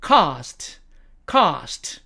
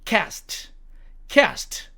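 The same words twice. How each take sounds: First: British "cast" with long ah; British demo of "cast"; British accent. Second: American "cast", front a as in "cat"; American demo of "cast"; American accent. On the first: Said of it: "영국식 발음으로는". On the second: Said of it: "미국식 발음으로는". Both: Shown as a demonstration.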